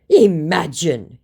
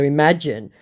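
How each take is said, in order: First: Slow, loud, drawn-out mock retort; mock scammer retort. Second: Said in the usual way. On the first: Scammer retorts to the doubter, drawn-out mock emphasis. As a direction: stretch it out with theatrical emphasis.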